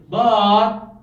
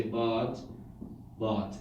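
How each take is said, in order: First: But rising, louder and slower; emotional but. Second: But dropping down low; falling. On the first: Teacher showing but said with emotion. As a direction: put feeling into but. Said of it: "unless if there's an emotion attached". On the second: Teacher showing the flat falling but. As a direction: let but just fall. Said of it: "It's just down". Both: Shown as a demonstration.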